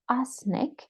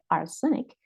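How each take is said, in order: First: No vowel is heard between the s and n. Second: A vowel is heard between the s and n. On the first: The speaker calls it right. "actually there is no E in between" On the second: The speaker calls it wrong. "we don't say arsenic"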